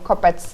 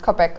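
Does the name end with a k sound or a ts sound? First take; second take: ts; k. First: The name ends with a ts sound. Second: The name ends with a k sound. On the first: "my feeling would tell me to pronounce it Kopets" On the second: "whether it's pronounced Kopek or Kopets"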